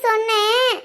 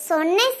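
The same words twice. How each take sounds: First: Said in the usual way. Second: Shy soft laugh through the word; laughing softly. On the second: Acted. Girl admitting she said it, laughing softly. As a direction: giggle it out, embarrassed.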